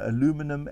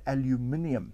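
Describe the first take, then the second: First: It is said in an American way. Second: It is said in a British way.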